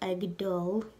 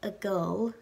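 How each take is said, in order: First: The middle d sound is clearly pronounced. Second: The middle d sound is dropped. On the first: This is the full form of the word. "instead of agdol" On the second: This is how most people say it in everyday speech. "most people pronounce it agul"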